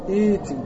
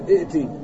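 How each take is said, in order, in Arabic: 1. ياء ممدودة دون همزة قطع. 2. همزة قطع محبوسة قبل التاء. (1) "ايتي ما تقول ائتي" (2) "ما تقول ائتي، خطأ"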